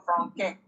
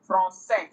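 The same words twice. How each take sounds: First: Franquin, a K where the S belongs; Français misread as "franquin" with hard C; wrong hard C. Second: Français with an S sound for the ç; "Français" with ç softened to S; soft-C pronunciation. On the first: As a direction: say "franquin" as fron-KAY. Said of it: "instead of franquin". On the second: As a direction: say "Français" as fron-SAY. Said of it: "it is just used to soften C to give it an S sound". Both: Shown as a demonstration.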